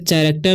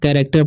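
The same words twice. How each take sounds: First: The word begins with a ch sound. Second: The word begins with a k sound. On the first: The speaker calls it wrong. "इसे कैरेक्टर नहीं पढ़ना है" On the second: The speaker calls it right. "कैरेक्टर पढ़ते हैं। ... सी एच का उच्चारण यहाँ पर होता है क।"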